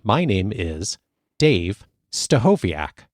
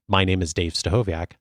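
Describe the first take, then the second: First: A pause separates the names; the surname is punched. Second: The names run together and the surname trails off. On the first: The speaker calls it right. "separate your first and last name clearly, and then to kind of punch out your last name" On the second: The speaker calls it wrong. "rather than saying"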